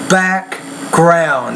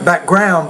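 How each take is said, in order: First: The stress is on the first part, back. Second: The stress is on the second part, ground. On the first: The speaker calls it right. "it's the first part of the word you want to stress more" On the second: The speaker calls it wrong. "not background"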